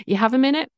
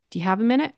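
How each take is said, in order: First: "You have a minute?" without the do. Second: "Do you have a minute?" keeping the do. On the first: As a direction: drop the do, start on "You". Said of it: "No do". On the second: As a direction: keep the "Do" at the start. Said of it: "I said the do". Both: Shown as a demonstration.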